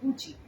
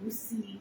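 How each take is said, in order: First: The middle consonant is a 'ch' sound. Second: The middle consonant is an 's' sound. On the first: The speaker calls it right. "শুধু গুচি simply" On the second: The speaker calls it wrong. "এটাকে কেউ গুসি বা গুসাই বা অন্যভাবে না"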